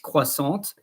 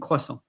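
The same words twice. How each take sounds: First: The final t sound is pronounced. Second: The final t sound is silent. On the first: The word is spelled with a final e. "if there is an e at croissant, then it's croissant" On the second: The word has no final e. "normally you say chocolat and croissant"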